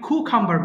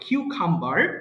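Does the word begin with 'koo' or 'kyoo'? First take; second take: koo; kyoo. First: The first syllable is a plain 'koo' sound. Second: The first syllable is a gliding 'kyoo' sound. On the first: The speaker calls it wrong. "অনেকে কুকাম্বার বলে" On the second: The speaker calls it right. "সঠিক হবে কিউকাম্বার"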